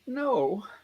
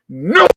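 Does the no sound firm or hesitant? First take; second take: hesitant; firm. First: The no sounds hesitant and uncertain. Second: The no sounds firm and forceful. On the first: It could still turn into a yes. "is there a maybe in there? There's, yeah, there's a maybe" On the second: It is a definite refusal. "ab- absolutely not. Absolutely comes to mind"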